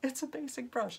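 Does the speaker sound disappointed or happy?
happy. It sounds bright and pleased. The plain brush is a welcome thing. The speaker calls it right. "I say it like, yay"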